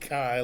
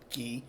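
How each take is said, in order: First: The word sounds like 'kai'. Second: The word sounds like 'key'. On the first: "I don't pronounce it chi like the Greek letter" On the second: "I pronounce it ki"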